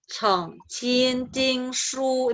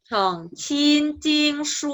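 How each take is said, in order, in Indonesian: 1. Frasa ini diucapkan dengan nada lebih rendah. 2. Frasa ini diucapkan dengan nada lebih tinggi. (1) "ini kalau yang agak rendah" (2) "yang lebih tinggi"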